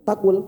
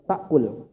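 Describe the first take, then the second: First: No glottal stop is heard before 'kul'. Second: A glottal stop is heard before 'kul'. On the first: The speaker calls it wrong. "nggak ada orang baca takul" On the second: The speaker calls it right. "Hamzah sekalipun mati sukun, dia tetap dianggap"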